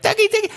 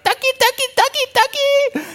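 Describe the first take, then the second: First: Very high squeaky ducky call; mock lady calling. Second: Very high squeaky ducky calls; imitating a lady calling. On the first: Pastor recalling the crazy lady calling sheep, very high. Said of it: "The crazy lady yelling out". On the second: Pastor imitating a lady at the pasture, squeaky high. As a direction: mimic a clueless woman calling sheep, way up high. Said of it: "one lady goes up, she's like".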